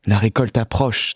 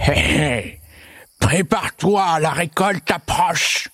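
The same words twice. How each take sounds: First: Understated parental worry; a touch of anxiety, no taunting; worried. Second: Slow, high, taunting monster voice; snigger, then draw out a gleeful warning; mocking monster with an evil chuckle. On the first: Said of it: "de plus en plus inquiets". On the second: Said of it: "le monstre surgissait en ricanant". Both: A narrator's reading.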